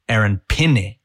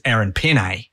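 First: The surname's two syllables share the same vowel. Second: The surname ends with a different 'nay' vowel. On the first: The speaker calls it right. "So the pe and the ne sound exactly the same. They have the same vowel sounds" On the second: The speaker calls it wrong. "the commentators have been saying his name is Aaron Penne, and that's just a little bit off"

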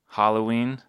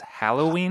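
First: The first syllable sounds like 'hollow'. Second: The first syllable sounds like 'hal'. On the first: This is a regional way of saying it. "is an Idaho pronunciation" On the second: This is the standard way of saying it. "the correct way is Halloween?"

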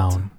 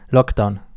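First: The stress is on Down. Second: The stress is on Lock.

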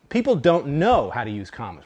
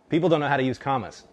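First: There is a pause after 'know'. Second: There is no pause after 'know'.

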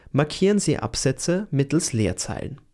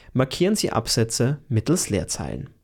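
Both takes have the same delivery.

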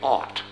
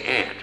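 First: It does not sound like the insect word. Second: It sounds just like the insect word ant. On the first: This is how people in Australia say it. "English in Australia, you say aunt" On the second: This is how the speaker's own community says it. "We say aunt"

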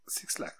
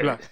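First: The name is said as two words, six lack. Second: The name is said as one word, black. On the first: The speaker calls it wrong. "I said it wrong" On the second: The speaker calls it right.

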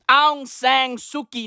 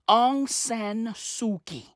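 First: The second word ends with an ng sound. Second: The second word ends with an n sound. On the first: The speaker calls it wrong. "I always add the fucking G on San. And then I turn it into Sang" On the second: The speaker calls it right. "Her name is Aung San. Like Khoi San"

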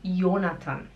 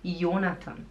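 The two takes are said the same way.

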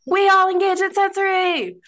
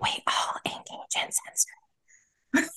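First: It is said loudly. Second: It is said at normal volume.

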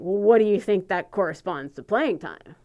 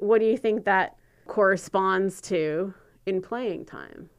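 First: It sounds confrontational and accusing. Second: It sounds open and genuinely curious.

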